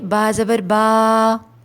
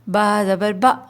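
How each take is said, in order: First: The vowel is stretched out long. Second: The vowel is cut off with a jolt. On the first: "ऐसे नहीं" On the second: "ऐसे भी नहीं"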